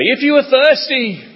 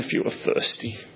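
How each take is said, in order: First: It is said in a joyful, delighted tone. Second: It is said in a pitying, sorrowful tone. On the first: The speaker is glad to make the offer. "Did he speak with sheer joy?" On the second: The speaker feels sorry for the listeners. "Did he speak with pity?"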